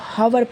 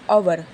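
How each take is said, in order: First: The word starts with an audible h sound. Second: The word starts directly with a vowel sound. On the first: The speaker calls it wrong. "बहुत लोग इसको हवर पढ़ते हैं" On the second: The speaker calls it right. "यहाँ पे भी एच silent है"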